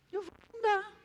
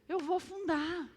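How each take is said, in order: First: "Eu vou afundar" higher, punching "afundar"; emphatic "afundar" with rising pitch; dramatic repeat. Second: Said in the usual way. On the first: Shown as a demonstration. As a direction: say "afundar" as if sinking.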